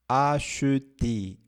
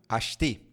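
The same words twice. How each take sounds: First: The word is said very slowly. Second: The word is said very quickly. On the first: "se a gente for pronunciar bem devagar" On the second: "Bem rápido"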